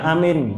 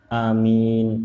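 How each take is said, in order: First: The vowels are said short and clipped. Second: The vowels are drawn out long. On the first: It sounds like a different word meaning safe. The speaker calls it wrong. "Bukan amin" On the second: It asks for the prayer to be answered. The speaker calls it right. "A-nya panjang tapi lebih panjang mimnya"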